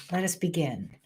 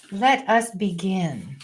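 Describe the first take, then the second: First: Softer, quick throwaway; murmured repeat; quieter repeat. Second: Slow, formal announcement; grand opening. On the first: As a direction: say it again under the breath. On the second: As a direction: open the show with ceremony. Ceremonious opening. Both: Real, not acted.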